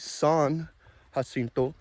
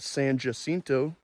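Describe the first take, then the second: First: It is said with a Spanish pronunciation. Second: It is said with an American English pronunciation. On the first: This follows the name's Spanish origin. The speaker calls it right. "It should be San Jacinto" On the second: This is the local version of the name. The speaker calls it wrong. "in Texas, we have the Battle of San Jacinto"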